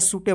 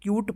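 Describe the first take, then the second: First: It begins with s and ends with e. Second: It begins with ky and ends on t. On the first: The speaker calls it wrong. "मत पढ़िएगा" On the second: The speaker calls it right. "इसको क्यूट पढ़ेंगे"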